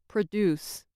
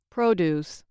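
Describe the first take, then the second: First: Produce as a verb, pruh-DUCE; second-syllable stress. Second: Produce as a noun, PRO-duce with a long O; first-syllable stress. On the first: Teacher showing the verb form, second-syllable stress. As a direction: reduce the start of "produce", stress the end. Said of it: "on the second syllable, they act as verbs". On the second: Teacher showing the noun form, first-syllable stress. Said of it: "With stress on the first syllable". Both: Shown as a demonstration.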